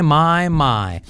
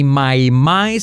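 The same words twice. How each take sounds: First: "my" said the right way, ai gliding to e; correct English "my". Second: "my" with a flat Spanish i ending, no glide; "my" said the wrong way, Spanish style. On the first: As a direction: model the right "my" with an open second vowel. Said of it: "sino my". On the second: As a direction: show the mistake on "my" with a Spanish vowel. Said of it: "No es my". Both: Shown as a demonstration.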